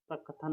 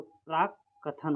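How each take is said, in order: First: प्रकथन with a single short क, no doubling; teacher contrasting the wrong form प्रकथन. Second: प्राक्कथन with a clear doubled क्क, held before थ; teacher giving the right form प्राक्कथन; correct pronunciation. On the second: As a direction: say प्राक्कथन as prak-kathan with the double k. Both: Shown as a demonstration. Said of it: "प्रकथन नहीं".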